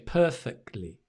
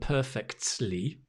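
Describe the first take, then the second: First: The t sound in the middle is dropped. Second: The t sound in the middle is clearly pronounced. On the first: The speaker calls it right. "the t sound kind of drops when we say perfectly" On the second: The speaker calls it wrong. "rather than perfectly"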